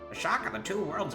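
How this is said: It is read in a put-on old-man voice. The speaker calls it right.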